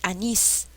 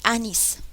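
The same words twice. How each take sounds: First: The stress is on the last syllable. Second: The stress is on the first syllable. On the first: The speaker calls it right. "Ahí suena. Nis es la sílaba que lleva la mayor fuerza de voz" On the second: The speaker calls it wrong.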